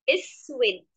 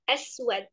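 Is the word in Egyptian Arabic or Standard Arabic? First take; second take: Egyptian; Standard. First: It is said in Egyptian Arabic with i vowels. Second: It is said in Standard Arabic with open vowels. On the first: "Kalau dengan bahasa Amiyah" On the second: "kalau dengan bahasa Fusha"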